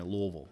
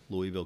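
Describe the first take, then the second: First: "Louisville" swallowed to LUH-vul, two syllables; Kentucky local pronunciation. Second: Said in the usual way. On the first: Shown as a demonstration. Showing the host how locals say their city, in a Kentucky pronunciation. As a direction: say "Louisville" like a born local, not LOO-ee-ville. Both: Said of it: "If you're from there".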